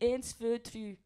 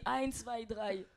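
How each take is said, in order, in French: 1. C'est prononcé avec un accent suisse allemand. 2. C'est prononcé avec un accent allemand standard. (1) "Un suisse allemand il dit" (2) "un allemand il dit"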